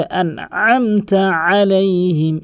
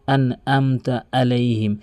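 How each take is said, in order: First: "আনআমতা আলাইহিম" slow, higher, throat squeezed on each ayn; correct throaty ayn. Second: "আনআমতা আলাইহিম" with plain a sounds; common mispronunciation. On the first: Teacher showing how it must be said, slow throaty recitation. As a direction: chant "আলাইহিম" from mid-throat. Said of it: "বলতে হবে". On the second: Teacher mimicking what most people say, plain vowels. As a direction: say "আলাইহিম" without the throaty ayn. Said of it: "অধিকাংশ লোক বলে". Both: Shown as a demonstration.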